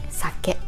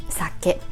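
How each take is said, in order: The two takes are said the same way.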